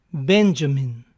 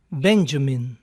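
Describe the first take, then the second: No difference in how they are said.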